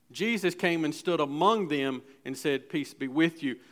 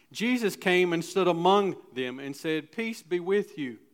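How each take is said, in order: No difference in how they are said.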